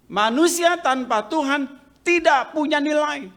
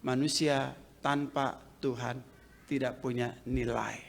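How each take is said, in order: First: Higher, louder restatement of the quote; preacher proclaims the theologian's line, loud and high; loud repeat. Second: Quiet quote. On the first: Preacher drives home the quote to the congregation, loud. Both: Shown as a demonstration. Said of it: "seorang teolog mengatakan".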